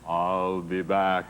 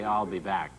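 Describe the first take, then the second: First: It is said imitating the Terminator's accent. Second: It is said in the speaker's plain accent. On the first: The speaker calls it right. "Now I know it's" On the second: The speaker calls it wrong. "I used to think I knew how to say"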